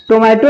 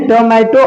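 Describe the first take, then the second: First: टोमेटो with a full "to" as first syllable; wrong pronunciation. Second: टोमेटो with an open, relaxed first vowel, "tuh-MAI-to"; corrected pronunciation. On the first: Teacher shows students what not to say, first O closed. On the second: Teacher corrects the word for students, open first vowel. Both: Shown as a demonstration. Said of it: "टोमेटो नहीं".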